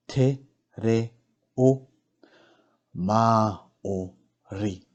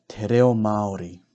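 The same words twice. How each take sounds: First: "Te reo Māori" very slowly, every syllable apart; slow teaching breakdown of "Te reo Māori"; broken into syllables. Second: Said in the usual way. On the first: Shown as a demonstration. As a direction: sound out each syllable with clear gaps. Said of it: "break down the words first". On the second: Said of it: "pronounce these words correctly".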